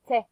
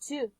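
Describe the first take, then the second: First: The vowel is reduced to a schwa. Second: The vowel is a full oo sound. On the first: The speaker calls it right. "the vowel change to the sound of the schwa" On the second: The speaker calls it wrong. "To is almost never pronounced this way"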